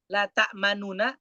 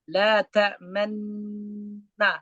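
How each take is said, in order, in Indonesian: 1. Vokal diucapkan penuh sebelum nun akhir. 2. Vokal yang dihilangkan tidak bersuara, hanya tersirat. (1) "Tulisan awalnya kan la ta'manuna" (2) "ismam itu menampakkan domah yang terbuang"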